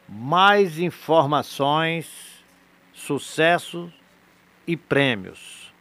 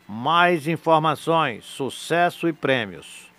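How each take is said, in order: First: It is said very slowly. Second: It is said at a normal pace.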